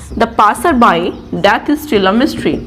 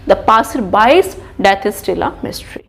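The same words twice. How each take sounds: First: "The passer by death" read slowly, no s after by; dictating "passer by death", by with no s; example without the apostrophe s. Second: "passer by's" with a clear s on by's, read slowly; dictating "by's death", the s sounded after by; corrected with apostrophe s. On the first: Teacher reads the uncorrected sentence slowly. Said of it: "compound noun के एंड में मैं लगाऊंगी". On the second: Teacher reads the corrected sentence slowly, marking by's. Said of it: "compound noun के एंड में मैं लगाऊंगी apostrophe एस". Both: Shown as a demonstration.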